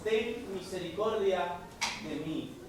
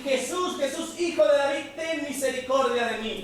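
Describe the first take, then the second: First: Softer, slow, lowering prayer; quiet, drawn-out plea for mercy; hushed plea. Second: Calling out high, voice climbing on the name; the blind man crying out for mercy; pleading call from the roadside. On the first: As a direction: pray it under the breath, slowly. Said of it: "Clamar aún más fuerte". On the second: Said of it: "comenzó a dar voces". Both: Acted.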